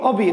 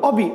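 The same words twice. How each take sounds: The two takes are said the same way.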